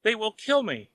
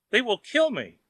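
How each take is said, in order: First: High frightened cry; panicked wail. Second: High wail, a bit louder; louder panicked wail. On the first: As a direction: cry it in terror. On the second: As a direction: cry it again even more desperate. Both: A narrator's reading. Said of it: "wailed Wang".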